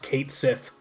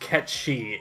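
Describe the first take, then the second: First: The name sounds like 'Kate Sith', two clear words. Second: The name sounds like 'Ketchi', run into one word. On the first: The speaker calls it wrong. "not pronounced Kate Sith" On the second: The speaker calls it right. "it's pronounced Ketchi. It's Scottish"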